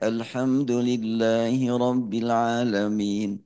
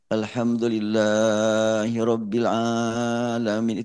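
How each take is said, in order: First: The vowels are held at their normal length. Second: Some vowels are stretched out too long. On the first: The speaker calls it right. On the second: The speaker calls it wrong. "ketambahan itu, kelebihan itu"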